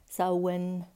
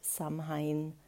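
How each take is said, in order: First: It is pronounced the traditional Celtic way. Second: It is pronounced letter by letter, as spelled. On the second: "wie es geschrieben wird"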